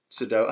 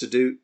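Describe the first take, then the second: First: "Sudo-" said as "suh-doh", cut off; "doh" syllable. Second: "Sudo-" said as "suh-doo", cut off; "doo" syllable. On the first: Streamer trying the other name for the puzzle, "Sudo-" as "suh-doh". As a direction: give "Sudo-" a long "oh" in its second syllable. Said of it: "I'm pretty sure it's Sudoku". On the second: Streamer unsure of the puzzle's name, "Sudo-" as "suh-doo". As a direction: give "Sudo-" an "oo" in its second syllable. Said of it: "I don't know whether it's". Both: Shown as a demonstration.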